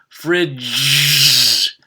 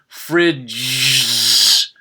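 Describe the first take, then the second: First: A z is squeezed on, giving one syllable. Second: The same.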